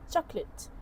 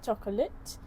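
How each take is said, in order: First: The middle vowel is dropped. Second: The middle vowel is fully pronounced. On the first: "it became chocolate" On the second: "Instead of saying chocolate"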